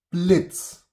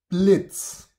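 No difference in how they are said.

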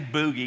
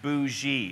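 First: The middle consonant is a hard g sound. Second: The middle consonant is a soft zh sound. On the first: The speaker calls it wrong. "don't say boogie, because you totally ruin the effect" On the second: The speaker calls it right. "It's bougie, okay?"

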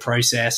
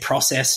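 First: The word is pronounced in an Australian way. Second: The word is pronounced in an American way. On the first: "instead of process" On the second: "I say process now"

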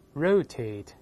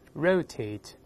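First: The stress is on the first syllable. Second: The stress is on the first syllable.

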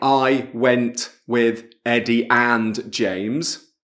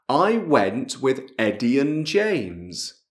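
First: The word 'and' is said in full. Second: The word 'and' shrinks to a short n. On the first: The speaker calls it wrong. "non è" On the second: The speaker calls it right. "la A, la D non c'è"

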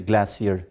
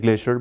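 First: The word is said with a British pronunciation. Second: The word is said with an American pronunciation. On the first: "so we should say glacier" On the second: "Americans say glacier"

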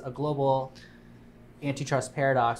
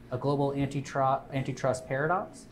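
First: The phrase is said plainly, without marked inflection. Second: The phrase is said with a marked pitch inflection.

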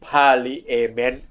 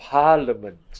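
First: The word is sounded out letter by letter. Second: The word is said in its usual reduced form. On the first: The speaker calls it wrong. "ถ้าเราอ่านกันตามตัวอักษรเราอ่าน" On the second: The speaker calls it right. "แต่ว่ามันต้องอ่านว่า"

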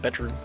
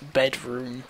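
First: It is said as one joined word. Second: It is said as two separate words. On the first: "like I normally would" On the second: "as if there were two separate words"

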